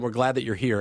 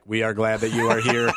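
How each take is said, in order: First: It is said in a natural, warm voice. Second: It is said in a flat, robotic voice.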